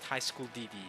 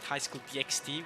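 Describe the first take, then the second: First: The letter X is left out. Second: The letter X is spoken aloud. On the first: "I do pronounce it High School D D" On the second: "I don't pronounce it High School D X D, which I think is by far the most common pronunciation"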